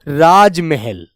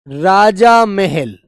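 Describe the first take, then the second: First: The first part is shortened with no final vowel. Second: The first part has a long final aa vowel. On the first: The speaker calls it right. "बिल्कुल सीधे सम- शब्द में" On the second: The speaker calls it wrong. "राजा महल ऐसे बोल दिया आपने। अरे भाई गलत है ना"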